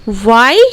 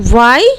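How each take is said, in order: No difference in how they are said.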